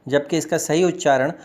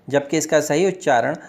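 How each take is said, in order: The two takes are said the same way.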